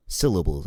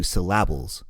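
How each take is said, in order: First: Syllables with the first syllable hit, as normal; correct stress. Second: Syllables stressed on the second syllable, syl-LA-bles; wrong stress. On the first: Host showing co-host correct word stress, first syllable stressed. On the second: Host showing co-host misplaced stress, middle syllable stressed. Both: Shown as a demonstration. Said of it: "put the emphasis on the wrong syllable".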